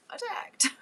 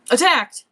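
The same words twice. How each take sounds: First: Attacked said much higher and softer, lightly sung; Attacked in a high, soft, amused voice; high soft reading. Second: Attacked read out loud, punched hard and falling; Attacked as a loud mock-dramatic headline. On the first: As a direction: toss off Attacked as a high, quiet joke. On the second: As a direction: announce the word Attacked with mock alarm. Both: Shown as a demonstration. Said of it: "all I read was attacked".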